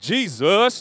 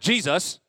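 First: The pitch dips within the word. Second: The pitch stays level without a dip. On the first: The speaker calls it right. "Like, you say a little dip" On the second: The speaker calls it wrong. "not like Jesus. Like, not like that"

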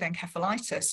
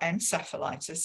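First: It is said with a British pronunciation. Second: It is said with an American pronunciation.

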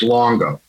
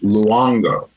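First: The name has an American pronunciation. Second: The name has an Italian pronunciation. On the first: It is the name used for drumming in New York. "But if I'm in New York and I'm playing drums" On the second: It is the name used for business in Italy. "If we're in Italy and I'm doing my fashion line"

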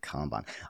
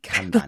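First: The first vowel sounds like the vowel in 'calm'. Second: The first vowel sounds like the vowel in 'can'. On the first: "I love your pronunciation of Kanban. It's got a calm to it" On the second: "I always think Kanban in my head"

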